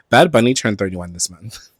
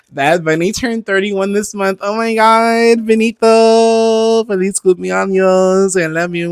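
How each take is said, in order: First: Said in the usual way. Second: High, drawn-out crooning; sung, singsong serenade. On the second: Pretend. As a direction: gush it in long, high sung notes. Gushing birthday serenade to [name].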